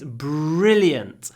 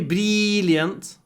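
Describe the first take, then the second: First: A strong r leads into l with no 'ee'. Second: A long 'ee' vowel sits between r and l. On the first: The speaker calls it right. "it's brilliant. ... There's no e in brilliant. There's just a lot of r and then some l" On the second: The speaker calls it wrong. "don't say brilliant"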